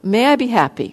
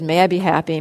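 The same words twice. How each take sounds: First: It is said slowly and deliberately. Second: It is said quickly and mechanically.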